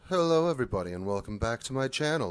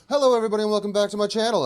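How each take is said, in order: First: It is said with weak, low energy. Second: It is said with strong, lively energy.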